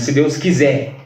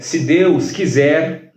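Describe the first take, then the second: First: The final r sound is dropped. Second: The final r sound is pronounced. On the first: "É a supressão dessas letras" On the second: "em vez de dizer"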